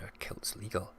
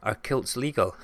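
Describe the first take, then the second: First: Whispered, much softer; hushed disbelief. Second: Said in the usual way. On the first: Real, not acted. Streamer echoing chat's question about kilts, hushed disbelief. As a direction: repeat the question in an incredulous whisper.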